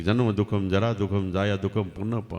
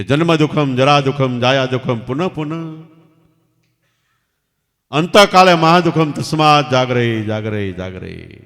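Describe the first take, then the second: First: Softer, musing recital of the verse; pondering murmur. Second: Put-on boy's loud chanted call, fading on the last jagare. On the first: Retold or imitated. King quietly ponders the boy's verse to himself. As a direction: murmur the lines as if turning them over in your mind. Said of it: "રાજા વિચાર કરે છે". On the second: Boy calls the verse out loud to the king on the balcony. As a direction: call the verse out loud to the king, then let it die away. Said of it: "છોકરાએ જોરથી રાડ પાડીને કીધું".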